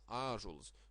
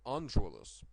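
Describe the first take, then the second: First: A long vowel is said with no nasal consonant. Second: A vowel followed by a nasal consonant is said. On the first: This is the modern form of the word. "it turned into a long vowel" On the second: This is the old form of the word. "in the old time people said"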